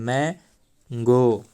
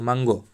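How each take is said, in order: First: The first vowel is an open 'a' sound. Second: The first vowel is a short 'u' sound. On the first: The speaker calls it right. "इसको बोलते हैं मैंगो" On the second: The speaker calls it wrong. "उसको बोलेगा मंगो"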